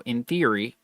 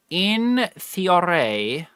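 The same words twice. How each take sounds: First: Said in the usual way. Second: In theory stretched very slow, pitched higher; drawn-out in theory. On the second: Shown as a demonstration. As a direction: draw out in theory like a tease. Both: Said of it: "repeated phrase".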